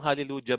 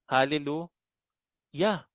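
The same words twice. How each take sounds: First: The middle consonant is a J sound. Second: The middle consonant is a Y sound. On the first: The speaker calls it wrong. "hallelujah ba ang, ang bigkas nyo doon? Hindi" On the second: The speaker calls it right. "Kasi ang basa dyan ay Yah"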